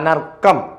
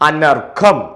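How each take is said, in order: First: The middle consonant is a plain k sound. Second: The middle consonant is breathy and drawn out. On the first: The speaker calls it wrong. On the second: The speaker calls it right.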